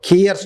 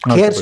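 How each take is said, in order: First: The name begins with a 'key' vowel. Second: The name begins with a 'kay' vowel. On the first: The speaker calls it right. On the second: The speaker calls it wrong.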